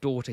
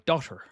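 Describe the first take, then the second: First: It is said in an English accent. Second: It is said in an American accent. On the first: The speaker calls it right. "instead of daughter" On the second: The speaker calls it wrong. "he went a bit transatlantic with it"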